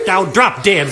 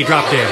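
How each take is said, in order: First: Rude insult. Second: Said in the usual way. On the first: Acted. Second girl insults again.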